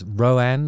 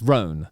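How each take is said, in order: First: The name is stretched into about two syllables. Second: The name is said as a single syllable. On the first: The speaker calls it wrong. "I've made the mistake of uh, saying it as Roan, like a two-syllable, uh, you know, one and a half syllable thing" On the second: The speaker calls it right. "but it's not. It's Roan"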